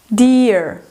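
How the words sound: It is said with an American accent, with R.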